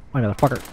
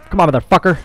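First: Said in the usual way. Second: High, agitated urging; heated urging. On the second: Real, not acted. Player cursing an enemy mid-fight, heated urging. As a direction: push it up in pitch, frustrated. Urging grows higher in firefight.

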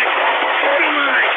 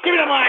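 First: High, loud drawn-out scream; furious screaming. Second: Said in the usual way. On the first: Real, not acted. Host demands the mic in a rage, screaming. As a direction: scream the demand at full force. Host explodes after mocking fans.

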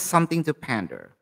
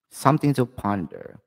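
First: PANDER with a short "a" as in "pan"; accented pronunciation. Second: Said in the usual way. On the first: Real, not acted. Tarot reader stumbling over a word for viewers, accented pronunciation. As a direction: say "pander" with a flat-A first syllable, like "pan-der". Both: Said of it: "Sorry for the accent".

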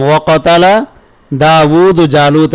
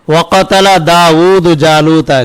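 First: Very slow, split with a pause after কাতালা; slow phrase-by-phrase repetition; slow repeat. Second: Slow recitation of the verse; measured Quranic reading. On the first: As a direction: spell it out for the students phrase by phrase. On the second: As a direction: chant the verse in one measured line. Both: Shown as a demonstration. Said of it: "কি বললাম?".

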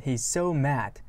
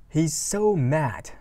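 First: Said in the usual way. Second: Every word stretched slowly; careful teacher read; slow lyric reading. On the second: Shown as a demonstration.

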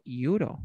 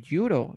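First: "euro" as ee-OO-ro, rising; wrong, vowel-initial euro. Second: "euro" as YOO-ro, falling; hard y at the start of "euro"; consonant y euro. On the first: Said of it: "yo no digo". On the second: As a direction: model the right "euro" with a consonant y. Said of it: "La Y de yate". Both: Shown as a demonstration.

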